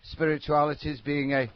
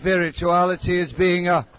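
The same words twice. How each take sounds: First: It is said flatly, without enthusiasm. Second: It is said with lively enthusiasm.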